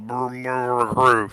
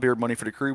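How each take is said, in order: First: The words are slurred together into mumbled sounds. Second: Every word is pronounced clearly and fully. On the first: It is said in the small hours after long celebrating. "it might sound like a brr, brr, crew" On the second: It is said right now, early in the celebration. "I can pronounce it now"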